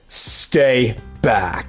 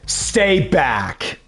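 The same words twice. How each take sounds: First: It is said in a put-on deep voice. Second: It is said in a normal speaking voice.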